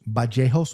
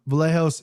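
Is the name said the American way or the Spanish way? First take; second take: Spanish; American. First: The name is said with a Spanish pronunciation. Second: The name is said with an American pronunciation. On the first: "This is how he pronounces it, Kevin Bajejos, Bajejos with the B" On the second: "because I Americanized it"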